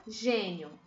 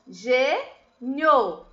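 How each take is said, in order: First: Said in the usual way. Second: "gênio" in two beats, gê, nio, with a pause between; teacher separating "gênio" syllable by syllable; split into syllables. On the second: Shown as a demonstration. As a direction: break "gênio" apart: gê... nio. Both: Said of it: "Separei as sílabas".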